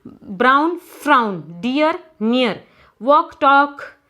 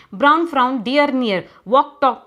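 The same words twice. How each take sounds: First: Said in the usual way. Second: Brisk, quick-fire rhyming pairs; faster reading. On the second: Shown as a demonstration. Teacher showing pupils how to read rhyming words faster, quick reading. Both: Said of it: "You have to say it faster".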